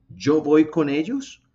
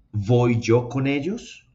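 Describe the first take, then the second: First: Slow, stressing voy with a rise; word order demo. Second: Slow, questioning rise on ellos; word order demo. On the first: Teacher reading the second option to class, slow rising question. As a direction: model the second option slowly. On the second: Teacher reading the first option to class, slow rising question. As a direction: model the question slowly. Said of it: "Les suena mejor". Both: Shown as a demonstration.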